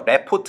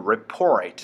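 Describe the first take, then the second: First: The stress is on the first syllable. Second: The stress is on the second syllable. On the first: The speaker calls it wrong. "report 하지 말고" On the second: The speaker calls it right. "report 사운드 만들어주기"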